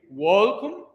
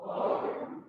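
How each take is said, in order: First: "Welcome" said as wolkum, clear and rising; "Welcome" spoken as wolkum for the choir to echo; model pronunciation. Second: "Welcome" echoed back as wolkum; the choir answers "Welcome" as wolkum. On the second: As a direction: repeat "Welcome" as wolkum after the teacher. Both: Shown as a demonstration. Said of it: "can you say".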